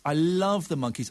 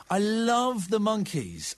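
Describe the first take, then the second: First: Said in the usual way. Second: "love" stretched out slowly; dreamy fan, "love" drawn out; slow, gushing. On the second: Acted. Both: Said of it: "I'm obsessed".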